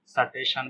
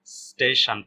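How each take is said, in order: First: स्टेशन as "suh-TAY-shan"; wrong full S. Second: स्टेशन as "STAY-shan", no vowel after s; correct half S. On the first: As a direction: insert a short vowel after the s of स्टेशन. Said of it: "स्टेशन भी नहीं पढ़ना है". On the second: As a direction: run s straight into t in स्टेशन. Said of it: "इसको क्या पढ़ना है". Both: Shown as a demonstration.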